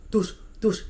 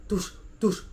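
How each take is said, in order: Both takes have the same delivery.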